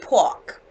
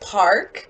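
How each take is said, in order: First: It is said in a Boston accent. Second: It is said in a standard North American accent. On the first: "a lot of them say park" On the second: "instead of park"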